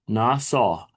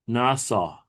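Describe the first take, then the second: First: It is said with a Hebrew pronunciation. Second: It is said with a Hebrew pronunciation.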